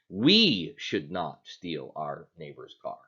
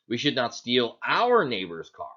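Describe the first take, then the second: First: The stress falls on the word "we". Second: The stress falls on the word "neighbor's". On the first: Others may do it, just not us. "is it okay for someone else to do it as long as we don't do it?" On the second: Stealing someone else's car would be fine. "So is it okay if we steal somebody"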